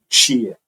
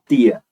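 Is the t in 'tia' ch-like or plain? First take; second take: ch-like; plain. First: The t sounds like 'ch' before the vowel. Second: The t sounds plain, with no 'ch' quality. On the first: "Algumas pessoas vão fazer o T e vão colocar uma palatal depois. É um tch" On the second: "tem gente que vai usar só o T mesmo"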